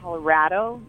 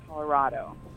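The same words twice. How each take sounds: First: The 'ra' vowel sounds like in 'rad'. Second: The 'ra' vowel sounds like in 'rod'. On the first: The speaker is from the state. The speaker calls it right. "it's Colorado, like rad" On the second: The speaker is not from the state. The speaker calls it wrong. "not Colorado"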